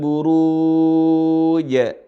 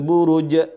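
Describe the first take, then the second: First: The second syllable's vowel is drawn out long. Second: The second syllable's vowel is short. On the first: The speaker calls it right. "Yang benar adalah harus mad, harus dipanjangin" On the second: The speaker calls it wrong. "Salah. Bukan buruj"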